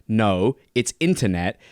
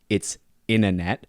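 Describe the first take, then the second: First: Internet with a clear T, slowly; slow crisp internet. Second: Internet said as inner-net, no T; T-less internet. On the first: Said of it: "I say internet". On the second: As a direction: drop the T in internet. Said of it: "We don't enunciate the T". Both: Shown as a demonstration.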